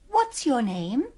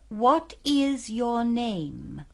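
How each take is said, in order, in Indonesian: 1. Diucapkan cepat, kata-katanya tersambung. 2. Diucapkan lambat, setiap kata terpisah. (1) "diucapkan dengan lebih cepat seperti dalam percakapan sehari-hari" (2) "Kalau diucapkan dengan perlahan-lahan"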